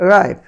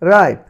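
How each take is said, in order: Both takes have the same delivery.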